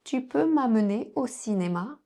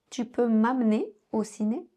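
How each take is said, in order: First: Said in the usual way. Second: "m'amener" said mam'ner, E dropped; "m'amener" squeezed to two syllables; swallowed E in "amener". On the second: Shown as a demonstration. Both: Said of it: "les autres sons me dans le mot".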